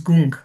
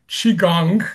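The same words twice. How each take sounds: First: Gung said as goong, not gong; Chinese pronunciation. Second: Said in the usual way. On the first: Shown as a demonstration. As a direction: say Gung with an oo vowel. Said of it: "the Chinese pronunciation is". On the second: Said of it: "is similar to".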